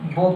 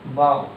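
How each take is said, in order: First: The vowel rhymes with 'go'. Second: The vowel rhymes with 'cow'. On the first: "इसको हम बो पढ़ते हैं" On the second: "इसे क्या पढ़ते हैं, बाओ"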